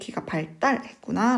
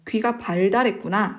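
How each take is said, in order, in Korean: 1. "발달"의 둘째 음절은 된소리 'tt'로 시작합니다. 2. "발달"의 둘째 음절은 예사소리 'd'로 시작합니다. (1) "된소리 대기인데요" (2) "라고 하지 않고"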